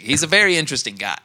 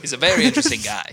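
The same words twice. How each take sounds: First: Willem Dafoe impression. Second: Quick, higher Dafoe voice; Willem Dafoe impression. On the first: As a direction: rattle it off like Dafoe. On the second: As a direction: lift it and rush it, Dafoe-style. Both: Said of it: "and he's like".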